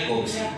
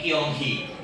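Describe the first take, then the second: First: It is said in the Mandarin pronunciation. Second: It is said in the Hokkien pronunciation. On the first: "Mandarinnya gongsi" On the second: "Suku Hokkien ini dialeknya beda, bukan gongsi tapi Kyonghi"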